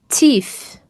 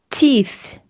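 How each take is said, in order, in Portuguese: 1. O primeiro som do t é suave e leve. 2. O primeiro som do t é suave e leve.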